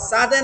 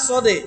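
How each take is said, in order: First: The first vowel is thin and open. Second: The first vowel is heavy and darkened. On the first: The speaker calls it wrong. "সাদে না" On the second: The speaker calls it right. "না সদে"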